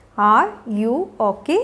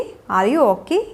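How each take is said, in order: First: Slow, low, separated words. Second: Said in the usual way. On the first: Shown as a demonstration. Teacher showing learners how to check on someone, word by word. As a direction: leave gaps between "Are", "you" and "okay". Teacher models question slowly, then joined.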